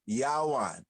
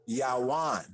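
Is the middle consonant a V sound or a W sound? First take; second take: W; W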